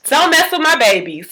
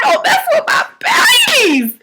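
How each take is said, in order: First: Said in the usual way. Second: Very high, drawn-out protective cry; hammed-up outraged squeal, stretching the words; losing it. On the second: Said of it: "I was losing it".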